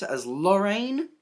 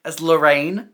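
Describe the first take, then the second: First: Lorraine drawn out with a rising end; weird emphasis. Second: Said in the usual way. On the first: Real, not acted. Reading out the cast list, weird emphasis on Lorraine. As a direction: stretch out Lorraine and lift its last syllable. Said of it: "put such weird emphasis on that". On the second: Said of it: "I can say names normally".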